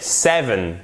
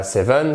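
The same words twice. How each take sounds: First: "seven" drawn out, stressed on SE-, falling; correct stress on seven. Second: "seven" with the weight on "-ven", rising; wrong stress on seven. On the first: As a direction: hit the first syllable of seven slowly. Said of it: "Accent tonique ici". (seven accentué sur la première syllabe) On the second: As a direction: stress the last syllable: seven as seVEN. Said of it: "C'est pas seven". (seven accentué à tort sur la fin) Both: Shown as a demonstration.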